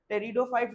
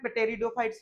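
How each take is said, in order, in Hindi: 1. यह शब्द "t" से शुरू होता है, इसमें "p" की आवाज़ नहीं है। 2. यह शब्द "t" से पहले "p" की आवाज़ के साथ शुरू होता है। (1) "टेरिडोफाइट्स बोलेंगे, ... उसको पी को प्रोनाउंस नहीं करेंगे" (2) "टेरिडोफाइट्स नहीं बोलेंगे"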